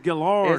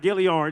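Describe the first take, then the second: First: The name has no extra sound after L. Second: The name has an extra 'ee' sound after L. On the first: The speaker calls it right. "It's Gillard" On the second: The speaker calls it wrong. "not Gilliard"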